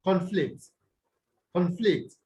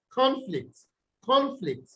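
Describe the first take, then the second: First: "conflict" with the weight on FLICT; stress on second syllable. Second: CON in "conflict" higher, falling away on flict; stress on first syllable. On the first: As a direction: say "conflict" as a verb, con light and FLICT stressed. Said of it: "you stress them on the what?". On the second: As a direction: say "conflict" as a noun, punching CON. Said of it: "you stress them on the first syllable". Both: Shown as a demonstration.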